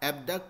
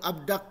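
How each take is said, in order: First: The first syllable sounds like 'eb'. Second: The first syllable sounds like 'ab'. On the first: This is how local speakers say it. The speaker calls it wrong. "एबडक्ट हम लोग बोल रहे थे ना" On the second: This is how Americans say it. The speaker calls it right. "ये लोग अबडक्ट बोलते हैं"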